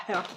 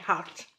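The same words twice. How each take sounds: First: Heart with an "eu" vowel, like "hurt"; wrong pronunciation. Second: Heart with an open "a" vowel; right pronunciation. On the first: Vlogger showing how not to say Heart, with an "eu" vowel. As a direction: quietly say Heart as French "heurt". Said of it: "On dit pas Heart". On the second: Vlogger settling how Heart is said, open "a" as in "hart". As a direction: say Heart as "hart", French accent. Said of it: "on dit Heart". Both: Shown as a demonstration.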